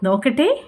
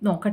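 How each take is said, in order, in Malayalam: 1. ആവേശത്തോടെയും അഭിനന്ദനത്തോടെയും തോന്നുന്നു. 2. മടിയോടെയും വിമുഖതയോടെയും തോന്നുന്നു. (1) "ഹായ് കൊള്ളാലോ" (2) "ബുദ്ധിമുട്ടാടാ"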